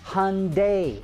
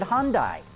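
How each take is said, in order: First: The name is said to rhyme with Sunday. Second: The name is said not rhyming with Sunday. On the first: This is the form the marketing department wants. "like Sunday" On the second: This is how the company's own executives say it. "they all pronounce it Hyundai"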